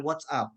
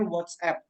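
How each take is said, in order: First: WhatsApp ending in an "ap" with open a; Indonesian-style mispronunciation. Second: WhatsApp with a fronted "app", like "wots-ep"; English pronunciation. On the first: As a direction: say WhatsApp as "wot-sap", Indonesian vowels. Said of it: "bukan WhatsApp". (WhatsApp dibaca "wot-sap" ala Indonesia) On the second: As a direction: end WhatsApp on the vowel of "cat". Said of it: "dalam bahasa Inggris itu kita bacanya". (WhatsApp dibaca "wots-ep" ala Inggris) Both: Shown as a demonstration.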